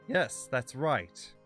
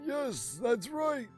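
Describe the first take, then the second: First: It is said in a normal voice. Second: It is said in a put-on old man voice.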